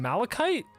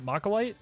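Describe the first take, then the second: First: The word is said as 'malachite'. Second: The word is said as 'machilite'. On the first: The speaker calls it right. "you mean Malachite?" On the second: The speaker calls it wrong. "someone corrected me"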